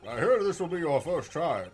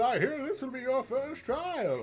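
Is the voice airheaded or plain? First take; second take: plain; airheaded. First: It is said in the usual judge voice. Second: It is said in an airheaded voice.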